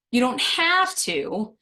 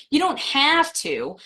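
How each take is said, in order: First: Slow down and weigh the word have; a grudging "you don't HAVE to" for a party invite; stress on have. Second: Don't lifted, said slowly; stress on don't. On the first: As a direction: have leaned on, slow and drawn out. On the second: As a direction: drag out you don't have to. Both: Shown as a demonstration. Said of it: "how I stress that word have".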